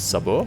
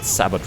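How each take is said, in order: First: It is said with a French-style pronunciation. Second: It is said with an English-style pronunciation. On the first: "but I'm pretty sure it's it's" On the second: "as an English word, I would pronounce it"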